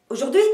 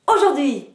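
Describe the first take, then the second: First: Aujourd'hui with rising tune, accent on the end; stress on last syllable. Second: Aujourd'hui bursting out high and loud on "au", then falling; aujourd'hui with loud initial accent, descending tune; stress on first syllable. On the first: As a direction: build the energy through aujourd'hui and hit the last syllable. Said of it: "vous accentuez la dernière syllabe". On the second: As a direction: explode on the start of aujourd'hui. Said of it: "vous accentuez la première syllabe". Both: Shown as a demonstration.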